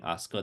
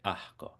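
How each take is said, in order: First: The s is pronounced as a clear s. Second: The s is breathed out as an h. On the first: "instead of saying asco" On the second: "they say ahco"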